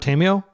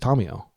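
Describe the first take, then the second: First: It is said with an American pronunciation. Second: It is said with a Japanese pronunciation. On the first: The speaker calls it wrong. "Americans generally pronounce it" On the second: The speaker calls it right. "like a Japanese person would"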